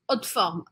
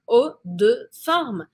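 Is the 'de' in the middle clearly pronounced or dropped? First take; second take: dropped; clear. First: The middle 'de' is swallowed in fast speech. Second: The middle 'de' is clearly pronounced. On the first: "ela come esse de no meio" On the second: "Se fala un haut de forme"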